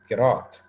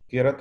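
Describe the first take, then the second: First: The second syllable has a long vowel. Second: The second syllable has a short vowel. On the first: The word means Quran recitation. The speaker calls it right. "बल्कि किरात बोला करें" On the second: The word means a very dirty cloth in Arabic. The speaker calls it wrong. "ये किरत लफ्ज़ नहीं है"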